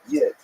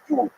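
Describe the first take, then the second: First: It starts with a y sound and short i. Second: It has a u vowel instead of i. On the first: "that's a Lithuanian pronunciation" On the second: "If you uh, lived in Western Germany, you would say Jud"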